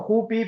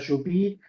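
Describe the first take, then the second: First: The name has its everyday Spanish opening sound. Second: The name has its Guarani opening sound. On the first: This is how the company itself says the name. "nosotros le decimos Jupi" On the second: This is how Guarani speakers say the name. "gente que en guaraní lo pronuncia Yupi"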